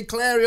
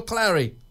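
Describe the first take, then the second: First: "Clary" with an open "air" vowel; Clary as Clairy. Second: "Clary" with a short "a" as in cat; Clary as Clarry. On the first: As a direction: say "Clary" to rhyme with dairy. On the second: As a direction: say "Clary" to rhyme with Harry. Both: Shown as a demonstration. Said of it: "do you say Clary or Clary".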